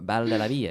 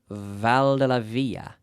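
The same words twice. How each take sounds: First: The name is said with Spanish-style sounds. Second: The name is said with English-style sounds. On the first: The speaker calls it right. "you say in Spanish" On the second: The speaker calls it wrong. "Now I'm saying that wrong"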